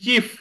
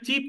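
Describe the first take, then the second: First: The word ends with an f sound. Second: The word ends with a p sound. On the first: The speaker calls it right. "এটা কিন্তু ফ উচ্চারিত হবে" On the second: The speaker calls it wrong. "চিপ না। চিপ হয়ে গেলে সস্তা হয়ে যাবে"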